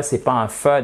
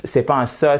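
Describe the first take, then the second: First: "fe" with an F; wrong sound. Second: "se" with a plain S; wrong sound. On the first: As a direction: say "fe" with lip on teeth, not TH. (mauvais son "fe" avec un F) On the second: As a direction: say "se" with an S hiss, not TH. (mauvais son "se" avec un S) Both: Shown as a demonstration.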